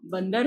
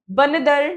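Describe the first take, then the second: First: बंदर as 'ban-dar', nd joined; two syllables in बंदर; correct pronunciation. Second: बंदर broken up as 'ba-na-dar'; mispronounced word. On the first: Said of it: "होता है". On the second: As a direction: slowly add a vowel after the n of बंदर. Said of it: "नहीं होता". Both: Shown as a demonstration.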